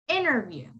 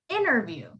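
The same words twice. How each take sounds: First: The T after the N is dropped entirely. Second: The same.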